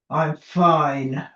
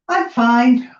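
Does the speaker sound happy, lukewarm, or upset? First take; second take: upset; happy. First: The tone sounds upset and displeased. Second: The tone sounds content and positive. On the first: Things are clearly not fine. "the tone of voice you can hear. Lynn clearly isn't fine" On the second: Things are genuinely good. "We know we're in a good place. Lynn's fine, she's in a good space"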